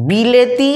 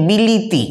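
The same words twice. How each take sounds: First: Said in the usual way. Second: বিলিতি with i after the l instead of e; changed vowel. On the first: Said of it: "লয়ের সঙ্গে একার ছিল". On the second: Shown as a demonstration. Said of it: "লয়ের সঙ্গে হস্যই হয়ে গেছে". (ল-এ হ্রস্ব ই দিয়ে বিলিতি)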